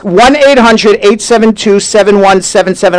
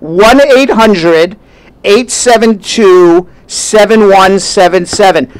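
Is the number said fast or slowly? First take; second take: fast; slowly. First: The number is said fast. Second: The number is said slowly.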